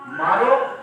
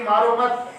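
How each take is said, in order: First: "मारो" loud and set apart by pauses; stress on मारो. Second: "मारो मत" as one unit, higher and louder; pause after मत. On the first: Preacher showing one reading of the phrase, stressed "मारो". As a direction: punch "मारो" on a rise, then stop. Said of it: "अब इसका क्या अर्थ निकाले हो?". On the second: Preacher showing the other reading, "मारो मत" grouped together. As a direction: run "मारो मत" together, rising on "मत". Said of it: "एक ये कि". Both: Shown as a demonstration.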